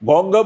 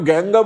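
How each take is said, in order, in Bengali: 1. এটি বাংলা উচ্চারণে বলা হয়েছে। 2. এটি হিন্দি ধাঁচের উচ্চারণে বলা হয়েছে। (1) "গঙ্গা বলি" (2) "কেন গ্যাঙ্গা বলবো"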